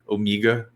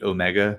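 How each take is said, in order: First: The word is said in an Australian accent. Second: The word is said in the speaker's plain accent.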